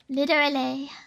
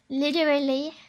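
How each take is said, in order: First: It is said in an American accent with a D. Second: It is said in an American accent with a D.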